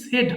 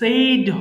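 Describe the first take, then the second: First: The vowel is a short plain 'e' sound. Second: The vowel is a long gliding 'ay' sound. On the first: The speaker calls it right. "Simply সেড হবে" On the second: The speaker calls it wrong. "পরেরটা কিন্তু সেইড হবে না"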